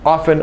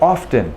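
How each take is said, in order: First: The T sound is silent. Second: The T sound is pronounced. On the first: "I, myself, never pronounce the T in the word often" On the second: "some people inserting a T into this word, and they render it often"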